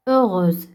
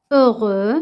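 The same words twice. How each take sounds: First: Heureuse said ending with a clear z sound; feminine form. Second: Heureux said with open ending, no final z sound; masculine form. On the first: Teacher to pupils, showing the girl's form: heureuse with final z. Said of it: "إلا كنت فتاة غادي نقول heureuse". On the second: Teacher to pupils, showing the boy's form: heureux ending on the vowel. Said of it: "كنت فتاة غادي نقول heureux". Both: Shown as a demonstration.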